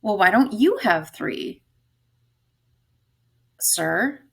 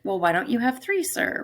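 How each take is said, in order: First: "you" stressed with a falling tune; "you" carries the weight, falling. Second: "three" stressed and rising; "three" hit with a rising question tune. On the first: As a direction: lean on "you" in "why don't you have three". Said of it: "where to put the emphasis". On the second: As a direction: lift "three" at the end. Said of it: "Or is it". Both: Shown as a demonstration.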